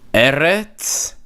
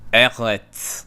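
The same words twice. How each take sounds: First: The R is rolled with the tongue tip. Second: The R is made at the back of the throat. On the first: This is an older traditional pronunciation. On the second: This is the modern Israeli pronunciation. "Israelis will say Eretz"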